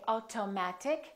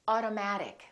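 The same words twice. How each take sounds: First: The t is a clear, crisp t sound. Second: The t is a quick d-like sound. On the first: The speaker calls it wrong. "We don't say" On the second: The speaker calls it right. "we say"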